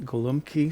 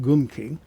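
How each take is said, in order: First: The word is said with three syllables. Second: The word is said with two syllables. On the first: "some people pronounce it golumki" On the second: "some people pronounce it gumki"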